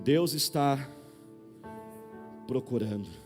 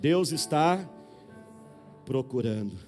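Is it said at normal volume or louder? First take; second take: normal; louder. First: It is said at a normal volume. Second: It is said louder and more forcefully.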